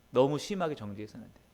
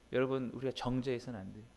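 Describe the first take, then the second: First: 심하게 pressed a bit louder than the rest of the line; stress on 심하게. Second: Said in the usual way. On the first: Shown as a demonstration. Preacher warning the congregation not to judge, stressing 심하게. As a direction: lean into 심하게 for emphasis.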